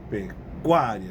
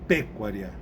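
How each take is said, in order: First: The stress is on the second-to-last syllable. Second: The stress falls on a different syllable. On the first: The speaker calls it right. "Onde está onde tá a tônica? Na penúltima" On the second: The speaker calls it wrong. "não é"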